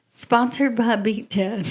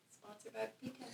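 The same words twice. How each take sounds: First: Said in the usual way. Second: Very soft, barely audible aside; feed the line under your breath; quiet off-mic cue; hushed prompt. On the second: Real, not acted.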